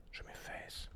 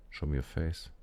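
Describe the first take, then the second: First: Tense whisper while aiming. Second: Said in the usual way. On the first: Real, not acted. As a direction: breathe it out, no voice. Same words whispered while aiming.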